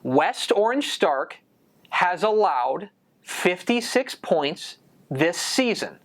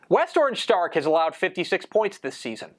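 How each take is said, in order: First: The sentence is spoken slowly and deliberately. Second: The sentence is spoken at a normal pace.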